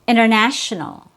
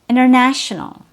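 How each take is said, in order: Both takes have the same delivery.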